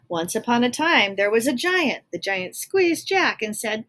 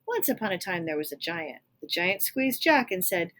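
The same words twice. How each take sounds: First: Loud, bold storybook opening; loud storytelling. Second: Said in the usual way. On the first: Acted. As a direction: read it big and booming. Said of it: "the Giant is talking in all uppercase". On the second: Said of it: "began his story".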